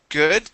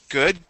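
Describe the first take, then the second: Both takes have the same delivery.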